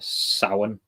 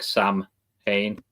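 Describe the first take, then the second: First: The middle consonant sounds like a W. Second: The middle is split into separate M and H. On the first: The speaker calls it right. "the M H in the middle is like a W" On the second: The speaker calls it wrong. "people split it as like Sam Hain"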